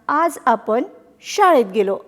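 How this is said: The words are run together in two pairs.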